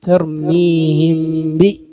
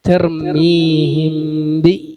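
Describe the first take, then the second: No difference in how they are said.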